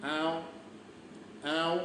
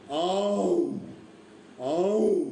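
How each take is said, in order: First: Short, gentle imitated tigress call; quiet mimicked big-cat moan; soft tigress call. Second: Drawn-out tiger roar, swelling and falling; long mimicked big-cat bellow; imitated tiger roar. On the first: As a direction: call softly like a tigress to her cubs. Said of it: "एकदम soft आवाज काढू लागली". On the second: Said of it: "पण त्याची आरोळी असते". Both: Shown as a demonstration.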